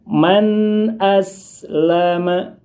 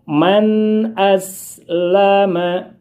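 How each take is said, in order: First: The n sound in man is kept short. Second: The n sound in man is kept short.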